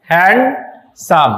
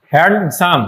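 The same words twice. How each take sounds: First: হ্যান্ডসাম split in two, হ্যান্ড, long pause, সাম; very slow হ্যান্ডসাম with a clear gap between its two syllables. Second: Said in the usual way. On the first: Shown as a demonstration. Teacher counting syllables for students, syllable-by-syllable. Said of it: "দুইটা হয়". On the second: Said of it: "এবার উচ্চারণ করো".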